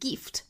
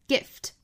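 First: The vowel is long. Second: The vowel is short. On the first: The speaker calls it wrong. "大家不要读成了 gift" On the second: The speaker calls it right. "应该是短音"

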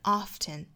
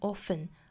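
First: The t sound in the middle is pronounced. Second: The t sound in the middle is silent. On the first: "把这个 t 的音读出来" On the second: "t 这个音不发"

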